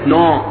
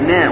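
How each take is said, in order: First: The syllable is heavy, with a thick vowel. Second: The syllable is light, with a thin vowel. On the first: The speaker calls it wrong. "وليست نا" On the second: The speaker calls it right. "النون من حروف الترقيق"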